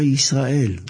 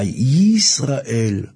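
First: The opening y sound is natural and light. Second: The opening y sound is heavily exaggerated. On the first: The speaker calls it right. "זה הביטוי הנכון" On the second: The speaker calls it wrong. "לא להדגיש את היוד יותר מדי"

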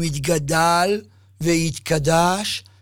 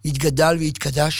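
First: The words are said slowly, with syllables drawn out. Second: The words are said quickly and smoothly, like speech. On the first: It shows off, out of pride rather than piety. The speaker calls it wrong. "האריכות הזו, המשיכה הזו, היא גאווה" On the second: It is said plainly, as one person talks to another. The speaker calls it right. "בלשון קולחת. בלשון מדברת"

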